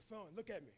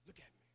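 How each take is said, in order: First: Steady him quietly; quiet fatherly voice; gentle father. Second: Much softer, much lower, almost breathed; hushed fatherly repeat; near-whisper father. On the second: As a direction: lean in and say it close. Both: Retold or imitated. Father calms hurt son.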